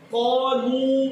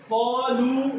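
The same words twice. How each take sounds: First: Slow "قالو" with a heavy, dark lam; wrongly thickened lam. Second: "قالو" with a light, clear lam; thin lam. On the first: Teacher imitating children's mistake, thick lam. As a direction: make the "لو" of "قالو" thick and rounded. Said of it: "کیوں موٹا پڑھ رہے ہیں؟". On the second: Teacher correcting the mistake, thin lam. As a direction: keep the "لو" of "قالو" thin, not rounded. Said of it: "لام بریک ہے". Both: Shown as a demonstration.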